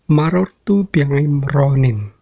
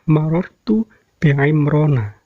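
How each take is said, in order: First: The name ends in an 'in' sound. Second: The name ends in an 'a' vowel. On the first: The speaker calls it wrong. "yang pertama yang salah" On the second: The speaker calls it right. "Yang benar adalah"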